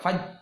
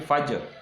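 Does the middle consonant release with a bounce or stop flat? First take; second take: flat; bounce. First: The j sound stops flat with no echo. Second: The j sound releases with a short echoing bounce. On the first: The speaker calls it wrong. "Ini maka faj" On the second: The speaker calls it right. "tapi baca fajar"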